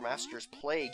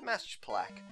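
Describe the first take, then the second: First: The last word ends with a g sound. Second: The last word ends with a k sound. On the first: The speaker calls it wrong. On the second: The speaker calls it right.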